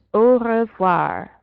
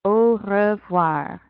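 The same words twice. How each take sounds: First: Au revoir said a little louder, au as O; French demo. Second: Au revoir slowed, au as O; slow French demo. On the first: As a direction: model Au revoir for repeating. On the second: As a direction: draw out Au revoir for repeating. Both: Shown as a demonstration. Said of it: "Try that one out".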